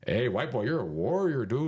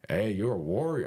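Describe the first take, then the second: First: Put-on higher-pitched, amateurish Mexican accent; bad Mexican accent. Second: Lightly imitated Mexican accent; a rough stab at a Mexican accent. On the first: Mexican cellmate hailing the white boy, in a shaky attempt at a Mexican accent. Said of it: "I'm not really good at accent". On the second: Mexican cellmate admiring the fighter, in an attempted Mexican accent. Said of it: "my, my accent".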